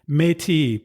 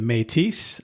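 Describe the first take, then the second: First: The word is said with a French pronunciation. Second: The word is said with an English pronunciation. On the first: "I'm pronouncing it in the French pronunciation" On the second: "It could be the Métis"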